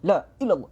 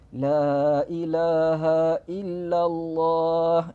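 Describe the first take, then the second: First: It is said quickly, syllables run together. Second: It is said slowly, every syllable clear. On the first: The speaker calls it wrong. "dibaca dengan laju sampai tak jelas bunyi dia" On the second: The speaker calls it right. "kita sebut dengan jelas, kita sebut dengan terang"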